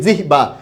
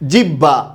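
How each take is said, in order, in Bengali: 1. মাঝের অংশটি 'hb' ধ্বনি দিয়ে উচ্চারিত হয়। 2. মাঝের অংশটি 'hb' ধ্বনি দিয়ে উচ্চারিত হয়।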